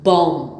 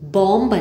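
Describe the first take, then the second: First: The word ends on the m sound. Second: A b sound is heard at the end. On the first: The speaker calls it right. "അല്ല ബോം" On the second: The speaker calls it wrong. "ബോംബ് അല്ല"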